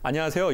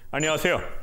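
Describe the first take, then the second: First: The greeting is said in a relaxed, natural voice. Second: The greeting is said in a tense, forced voice. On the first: The speaker calls it right. "이렇게 하면 되는데" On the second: The speaker calls it wrong. "힘이 들어가요"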